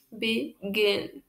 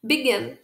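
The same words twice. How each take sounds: First: "Begin" split in two, stress on gin; stressed-syllable demo. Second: Said in the usual way. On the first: Shown as a demonstration. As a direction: softly sound out "Begin" as be... GIN. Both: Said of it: "Qual que é a sílaba tônica?".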